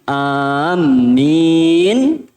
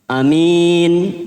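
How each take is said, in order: First: The m sound is doubled and held. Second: The first vowel is short, the second long. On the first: People who are walking. "Kalau mimnya ditasydid" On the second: A trustworthy person. "A-nya satu, minnya dua"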